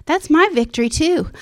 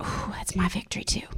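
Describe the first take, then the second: First: Higher, eager declaration of victory; joyful claim. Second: Soft, breathy hush of wonder; awed whisper. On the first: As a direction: claim the victory with rising joy. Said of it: "And I'm like". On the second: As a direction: whisper it like a secret realisation. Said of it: "I was like". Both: Retold or imitated.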